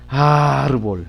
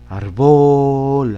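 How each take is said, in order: First: The stress is on the first syllable. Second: The stress is on the second syllable. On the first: The speaker calls it right. "Si le escribimos en ar" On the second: The speaker calls it wrong. "Si le escribimos en bol"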